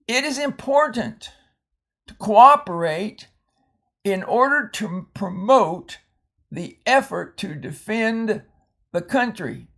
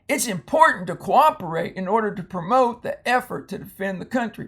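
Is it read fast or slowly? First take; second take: slowly; fast. First: It is read slowly. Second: It is read quickly.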